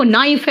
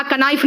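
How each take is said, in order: First: नाइफ starting straight on N; silent K. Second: कनाइफ with a K before the N; K wrongly sounded. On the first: Teacher correcting pupils, नाइफ with the K silent. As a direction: say नाइफ with no K sound. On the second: Teacher showing what she did not say, कनाइफ with K sounded. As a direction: sound an extra "ka" to start कनाइफ. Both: Shown as a demonstration. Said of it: "कनाइफ नहीं कहा है".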